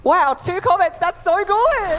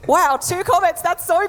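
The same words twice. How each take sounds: First: Sarcastic, high, laughing fake praise; high laughing sarcastic cheer; mock delight. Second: Sarcastic, high, bright-eyed praise; high sarcastic fake delight; mock delight. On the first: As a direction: gush falsely over a tiny number. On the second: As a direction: fake cheer over a pitiful win. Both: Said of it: "And I was just like".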